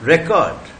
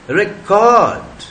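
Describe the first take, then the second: First: रिकॉर्ड with stress on the first syllable, re-; रिकॉर्ड stressed up front, as a noun. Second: रिकॉर्ड with stress on the second syllable, -cord; रिकॉर्ड stressed at the end, as a verb. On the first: Teacher gives the class the noun रिकॉर्ड, stress on re-. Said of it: "noun है". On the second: Teacher gives the class the verb रिकॉर्ड, stress on -cord. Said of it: "रिकॉर्ड verb है". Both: Shown as a demonstration.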